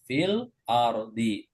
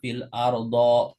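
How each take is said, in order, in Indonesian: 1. Kata terakhir diakhiri vokal i. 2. Kata terakhir diakhiri vokal a. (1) "harus kasroh fil ardi" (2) "kita tidak boleh baca fil ardo"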